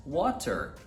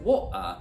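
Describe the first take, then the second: First: "Water" with a flapped T, "wader"; American water. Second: "water" with a glottal stop, "wa'er"; "wa'er" British. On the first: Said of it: "a palavra água em inglês". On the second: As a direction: swallow the T in "water". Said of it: "dependendo da pessoa". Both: Shown as a demonstration.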